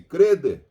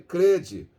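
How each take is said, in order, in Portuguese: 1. A palavra termina com o som simples de 'deh'. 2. A palavra termina com o som de 'jee'. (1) "Há parte do Brasil que se habla-se crede" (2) "na maior parte do Brasil é crede"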